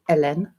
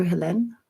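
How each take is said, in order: First: "Hélène" said the French way, ay-LEN; French pronunciation. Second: "Helene" said the English way, hel-EEN; English reading of "Helene" before correcting it; anglicised name. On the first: Correcting himself to greet a French viewer, French pronunciation. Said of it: "rather, sorry". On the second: Greeting French viewer Helene, English pronunciation first. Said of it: "Hélène, rather, sorry". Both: Shown as a demonstration.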